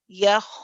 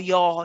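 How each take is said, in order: First: The vowel is a plain, neutral open sound. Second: The vowel is dark and heavy. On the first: The speaker calls it right. "how you would say the normal fatha ya" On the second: The speaker calls it wrong. "The ya becomes heavy"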